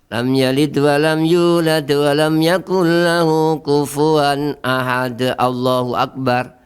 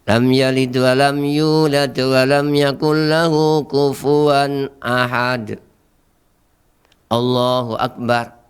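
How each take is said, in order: First: It runs straight into Allahu akbar without pausing. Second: A short pause comes before Allahu akbar. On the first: The speaker calls it wrong. "Ini juga salah" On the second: The speaker calls it right. "Ini jadi ada napas, ada berhenti sejenak"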